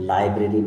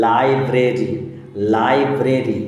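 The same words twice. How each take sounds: First: Said in the usual way. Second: library with a long first syllable, then split; broken into syllables. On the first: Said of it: "library মানে হচ্ছে". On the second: Shown as a demonstration. Teacher models a three-syllable word, part by part. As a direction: repeat library in separate, firm beats. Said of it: "তিনবারে ভেঙে উচ্চারণ করা যায়".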